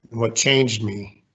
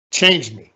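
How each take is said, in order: First: Said in the usual way. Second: "Changed" hit louder and held with a falling close; emphatic repeat. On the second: Real, not acted. Commander to his audience, repeating it with stress. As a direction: punch "Changed me" to drive it home.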